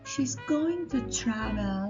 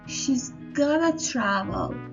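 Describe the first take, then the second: First: Going to is said in full, carefully. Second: Going to is reduced to gonna. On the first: The speech is formal. "in formal, we could say" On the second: The speech is everyday and casual. "and in spoken, we could say"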